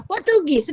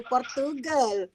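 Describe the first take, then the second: First: Portugis said slowly and clearly, not Portugal; corrected word. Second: Said in the usual way. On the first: Shown as a demonstration. Teacher correcting a student's answer, says Portugis slowly. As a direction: stretch out Portugis as the right word. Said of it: "leh kita sebut tu Portugal". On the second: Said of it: "leh kita sebut tu".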